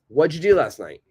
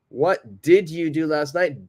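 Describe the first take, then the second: First: 'What did you' is run together as one sound. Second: Each word is said separately and fully.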